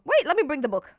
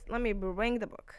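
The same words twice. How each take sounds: First: Higher and louder, blurted out; sudden excitement. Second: Said in the usual way. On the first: Real, not acted. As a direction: burst out as the idea hits. Suddenly remembers to fetch book.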